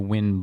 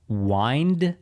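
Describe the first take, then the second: First: The vowel is short, rhyming with 'pinned'. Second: The vowel is long, rhyming with 'find'. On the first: "like the wind blowing through your hair" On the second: "like winding a watch"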